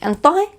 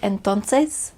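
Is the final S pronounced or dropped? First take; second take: dropped; pronounced. First: Said in a Honduran accent, final S dropped. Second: The final S sound is pronounced clearly.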